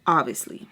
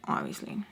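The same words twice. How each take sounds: First: Said in the usual way. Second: "Obviously." breathed out in a soft whisper. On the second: Shown as a demonstration. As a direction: whisper the word "Obviously" under her breath. Repeating the word, whispered take.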